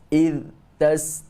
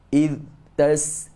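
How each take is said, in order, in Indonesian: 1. Suara berhenti mendadak setelah kata pertama. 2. Suara berhenti mendadak setelah kata pertama.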